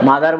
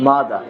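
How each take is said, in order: First: "মাদার" with the final r sounded; common mispronunciation. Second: "মাদার" as mada, final r silent; slow model "মাদার" ending on open a; corrected pronunciation. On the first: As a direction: say "মাদার" ending on r. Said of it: "মাদার বলি না". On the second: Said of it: "কি হবে?". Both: Shown as a demonstration.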